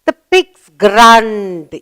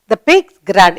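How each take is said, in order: First: Put-on very slow, each word drawn out for a child; slow teaching model. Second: Said in the usual way. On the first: Shown as a demonstration. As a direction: spell it out slowly, "The pigs grunt.". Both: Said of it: "Sound made by the little pig".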